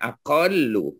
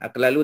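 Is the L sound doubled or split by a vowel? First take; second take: doubled; split. First: One long doubled L sound, no vowel between. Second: Two separate L sounds with a vowel between. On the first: The speaker calls it right. "aqallu betul" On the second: The speaker calls it wrong. "Aqlalu tak boleh sebab dia double lam"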